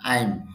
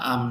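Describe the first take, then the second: First: The vowel glides to 'ai', like 'aim'. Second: The vowel is a plain 'ah', like 'ahm'. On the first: The speaker calls it right. "আইম হবে" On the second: The speaker calls it wrong. "অনেকে বলে আম talking, না আম না"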